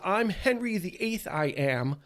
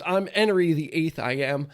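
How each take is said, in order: First: The h at the start of Henry is pronounced. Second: The h at the start of Henry is dropped.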